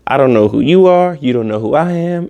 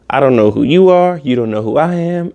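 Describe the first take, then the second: First: It is said in a smooth, cool way. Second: The same.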